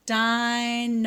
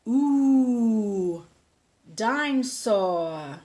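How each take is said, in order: First: "Dinosaur" said carefully in three parts, "di-no-saur"; correct pronunciation demo. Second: Put-on "dinosaur" mangled slowly like a toddler, "dinsaw"; little pig George says his new toy wrong, "dinosaur" drawn out and babyish; baby George's mispronunciation. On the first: Shown as a demonstration. Teacher models the right "Dinosaur" for the children. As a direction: model "Dinosaur" clearly syllable by syllable. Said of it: "Let's try that word. It's a long word".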